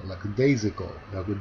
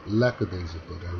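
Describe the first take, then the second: First: "lackadaisical" with stress on DAI, said slowly; correct stress. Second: "lackadaisical" with stress misplaced away from DAI, said slowly; wrong stress. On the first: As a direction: say "lackadaisical" slowly, pressing on the syllable before -ical. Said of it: "읽어야 되는데". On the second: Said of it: "읽으면은 말이 이상하게 들려요". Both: Shown as a demonstration.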